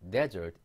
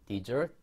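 First: "desert" as DEZ-ert, first syllable punched; stress on first syllable. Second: "desert" as di-ZURT, second syllable punched; stress on second syllable. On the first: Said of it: "데저트, 사막만 가-, 앞에 강세가 있고". ("desert"의 앞 음절에 강세) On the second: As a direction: say "desert" like dessert, stress at the end. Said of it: "디저트하고 인설트는 다 설트 뒤에 강세가". ("desert"의 뒤 음절에 강세) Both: Shown as a demonstration.

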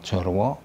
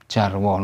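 First: "jorwo" said "jor-waw", first vowel rounded o; "jorwo" with o before the r; wrong O vowel. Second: "jarwo" said "jar-waw", first vowel open ah; "jarwo" with ah before the r. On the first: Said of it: "not jorwo". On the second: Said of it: "A followed by R is always pronounced". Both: Shown as a demonstration.

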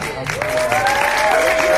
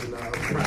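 First: A much higher, louder, stretched-out proud shout; exultant cry. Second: Said in the usual way. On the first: Real, not acted. Actor bursting with pride to the crowd, loud and high. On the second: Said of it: "I feel accomplished".

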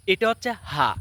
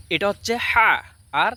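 First: হা said short and crisp; second ha sound. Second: হা drawn out slowly and stressed; first ha sound. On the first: Teacher pointing viewers to the screen, short crisp ha. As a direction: clip the হা short and clean. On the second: Teacher pointing viewers to the screen, slow drawn-out ha. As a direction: linger on the হা, slow and clear. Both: Shown as a demonstration. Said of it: "স্ক্রিনের দিকে একটু লক্ষ্য দেখেন".

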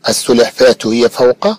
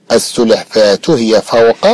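The two takes are said the same way.

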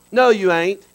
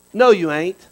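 The two takes are said the same way.

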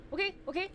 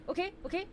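Both takes have the same delivery.

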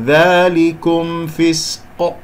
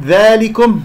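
First: ذلكم فسق very slow, long straight a, clear m, bounced ق; correct open alif. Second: ذلكم higher, long a thinned to "dhee-eh"; wrongly tilted alif. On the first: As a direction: recite ذلكم فسق drawn out with a pure "dhaa". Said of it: "هكذا". (تلاوة ذلكم فسق ببطء بألف صحيحة وميم مظهرة) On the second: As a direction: pitch up ذلكم and bend its a towards e. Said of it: "لا تقل صوت الألف". (نطق ذلكم خطأً بتقليل الألف) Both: Shown as a demonstration.

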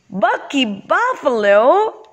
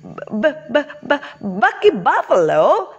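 First: High, slow cry of disbelief; stretched-out, pitched-up storybook astonishment; astonished exclamation. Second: High, stuttered start on the B; halting repeated first sound, then the name; stammering. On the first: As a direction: exclaim the name in amazement. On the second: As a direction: stammer in disbelief, like a startled bee. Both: Acted.

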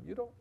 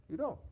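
First: Said in the usual way. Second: "You don't." jumps much higher on the repeat; higher, insistent second "You don't."; emphatic repeat. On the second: Real, not acted. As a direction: push the repeat up high for emphasis.

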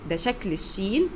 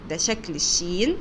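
The two takes are said the same way.

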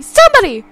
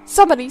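First: Very high, very loud shriek; second cry, shrill and desperate; shrieking for help. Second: Loud call, pitch held level; first cry for help, loud but steady. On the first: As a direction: scream for help in panic. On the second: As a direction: call out to the staff. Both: Acted. Mother calls for help.

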